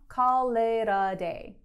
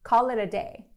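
First: The phrase is said slowly and carefully. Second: The phrase is said quickly and smoothly. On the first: "천천히 따라해보세요" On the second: "이제 빠르게"

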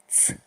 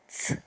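No difference in how they are said.

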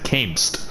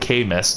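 First: The E is silent, giving one syllable. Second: The E is stressed, giving two syllables. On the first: "He said camest" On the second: "overemphasize the E like camest"

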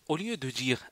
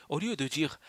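No difference in how they are said.

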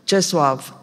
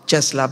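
First: The name is pronounced with Polish sounds. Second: The name is pronounced with Romanian sounds. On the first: "îl pronunț cât de cât, sper, corect poloneză" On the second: "zicem noi"

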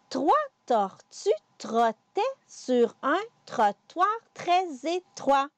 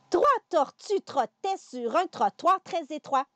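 First: The sentence is said at a slower pace. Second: The sentence is said at a faster pace. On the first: "On recommence" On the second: "On y va un petit peu plus vite"

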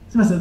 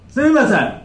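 First: It is spoken in a small, quiet voice. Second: It is spoken in a big, loud voice. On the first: "じゃあまずは小さな声で" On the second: "今のめちゃくちゃ日本語をボリューム上げてみますね"

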